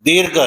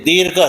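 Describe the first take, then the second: Both takes have the same delivery.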